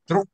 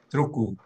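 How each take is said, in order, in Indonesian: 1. Kata ini berakhir dengan konsonan. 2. Vokal tambahan ditambahkan di akhir.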